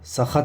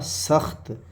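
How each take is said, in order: First: A short vowel separates the final two consonants. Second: The final two consonants join with no vowel. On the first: The speaker calls it wrong. "सख़त नहीं पढ़ने के" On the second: The speaker calls it right. "जज़म आ रहा ना"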